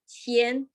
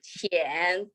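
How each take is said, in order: First: The pitch stays high and level. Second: The pitch dips low, then rises. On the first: It means humble. "the first tone" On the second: It means shallow. "third tone"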